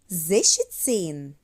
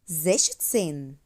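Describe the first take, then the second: First: The middle is said with an sh sound. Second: The middle is said with an sh sound.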